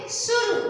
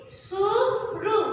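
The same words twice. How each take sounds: First: Said in the usual way. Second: Very slow, stretched blending of सुरु; sounding out words. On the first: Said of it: "क्या बोलेंगे?". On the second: Shown as a demonstration. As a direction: draw सुरु out syllable by syllable. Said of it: "क्या पढ़ेंगे?".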